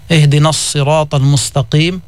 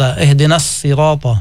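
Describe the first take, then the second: First: الصراط with an emphatic sad, heavy and dark. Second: الصراط with a light, plain sin, a bit slower. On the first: Teacher showing the sad reading of الصراط. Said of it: "فإذا ورد الصراط بالصاد". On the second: Teacher contrasting the sin reading of الصراط. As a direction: say الصراط with a thin س sound. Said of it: "بالسين". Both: Shown as a demonstration.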